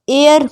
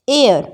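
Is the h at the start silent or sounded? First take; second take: silent; silent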